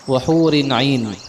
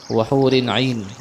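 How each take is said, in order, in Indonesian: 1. Kata hur diakhiri dengan vokal i. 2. Kata hur diakhiri dengan vokal i.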